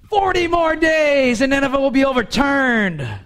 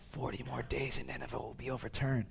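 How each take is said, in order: First: The sentence is said in a loud shout. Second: The sentence is said in a soft whisper. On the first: The message is proclaimed publicly to a crowd. "if he's standing up somewhere in front of them and going" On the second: The message is passed quietly to individuals. "if he just whispered it to people"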